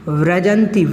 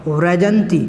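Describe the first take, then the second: No difference in how they are said.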